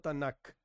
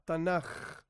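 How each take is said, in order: First: The word ends in a hard k sound. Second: The word ends in a guttural j sound. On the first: The speaker calls it wrong. "No Tanakh" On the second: The speaker calls it right. "se suele decir Tanaj con J, como si fuese J"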